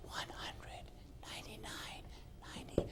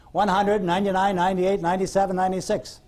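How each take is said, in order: First: Voiceless whisper, close in her ear. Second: Said in the usual way. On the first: Shown as a demonstration. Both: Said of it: "And I whispered in her ear".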